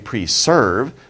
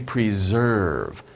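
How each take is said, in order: First: The second syllable sounds like the word serve. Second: The second syllable does not sound like serve. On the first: The speaker calls it wrong. "this looks like serve, but don't say preserve" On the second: The speaker calls it right. "Say preserve"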